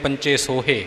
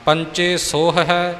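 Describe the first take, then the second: First: The second word ends in a plain -e sound. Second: The second word ends in an -ahi sound. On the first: The speaker calls it wrong. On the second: The speaker calls it right.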